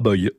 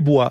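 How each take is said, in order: First: The name ends in an 'oy' sound. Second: The name ends in a 'wa' sound. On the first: The speaker calls it wrong. "ce n'est pas boy" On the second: The speaker calls it right. "la prononciation, c'est bois"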